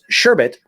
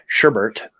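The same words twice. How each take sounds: First: The second syllable has no r sound. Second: The second syllable has an r sound. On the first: The speaker calls it right. "that is sherbet" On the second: The speaker calls it wrong. "not sherbet"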